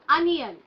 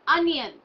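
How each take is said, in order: Both takes have the same delivery.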